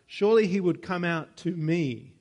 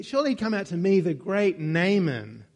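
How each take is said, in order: First: Said in the usual way. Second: Mock-pompous emphasis on "Surely he'd come out to me"; stress on Surely. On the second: Shown as a demonstration. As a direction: play up the pride on "Surely". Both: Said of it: "is kind of the emphasis there".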